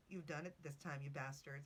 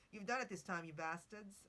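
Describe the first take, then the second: First: Said in the usual way. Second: Bad English accent. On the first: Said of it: "he turned around and said". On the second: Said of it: "Let me do it in an accent".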